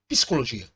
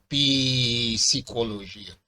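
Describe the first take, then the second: First: The p and s run together with no vowel. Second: An extra vowel separates the p and s. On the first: The speaker calls it right. "você fala psicologia" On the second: The speaker calls it wrong. "você não fala psicologia"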